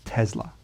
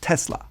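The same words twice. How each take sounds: First: The S is said soft, near a Z. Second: The S is said hard and sharp. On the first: This is how Americans often say it. "it sounds like Tesla with a softer S" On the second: This is how Serbian speakers say it. "they use a harder S"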